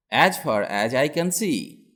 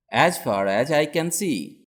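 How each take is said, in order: Both takes have the same delivery.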